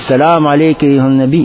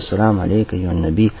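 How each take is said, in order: First: The greeting is shouted loudly. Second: The greeting is said in a quiet voice. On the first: The speaker calls it wrong. "Кричать, подходить" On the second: The speaker calls it right. "Говоришь тихим голосом"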